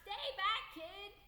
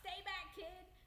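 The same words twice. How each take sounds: First: It is shouted at a louder volume. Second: It is shouted at a softer volume. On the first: "So I yelled it later, louder" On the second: "So I yelled"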